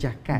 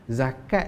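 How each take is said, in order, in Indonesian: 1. Kata ini diawali dengan bunyi j. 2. Kata ini diawali dengan bunyi z. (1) "disebut jakat" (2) "menyebut zakat"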